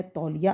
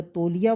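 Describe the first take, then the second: First: तौलिया with an open 'au', like 'tawliya'; correct au vowel. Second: तौलिया wrongly said with a closed 'o', like 'toliya'; mispronounced o vowel. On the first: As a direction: say तौलिया as 'tawliya', not 'toliya'. अगर तौलिया बोला तो गलत है. (तौलिया में खुली 'औ' की ध्वनि) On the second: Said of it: "बोला तो गलत है". (तौलिया को गलत 'तोलिया' बोलें) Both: Shown as a demonstration.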